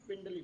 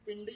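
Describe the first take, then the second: First: पिंडली, with a clear l before the final ी; correct word. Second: पिंडी, without the l, marked as the wrong form; पिंडी said as the rejected form; wrong word. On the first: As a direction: say पिंडली as the right form. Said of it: "पिंडी नहीं बोलते हैं". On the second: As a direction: say पिंडी as the word we don't use. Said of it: "पिंडली बोलते हैं". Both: Shown as a demonstration.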